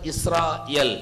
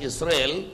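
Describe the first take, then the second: First: The name is said the original, non-English way. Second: The name is said the usual English way. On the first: The speaker calls it right. "it is originally should be pronounced as Israel" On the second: The speaker calls it wrong. "in English they pronounce the word as Israel"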